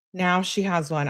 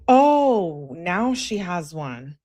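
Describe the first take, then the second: First: Said in the usual way. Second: Sarcastic, stretched-out commentary; mock realization. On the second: Real, not acted. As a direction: react with exaggerated, drawn-out mock surprise. Reacting to the sudden outfit claim.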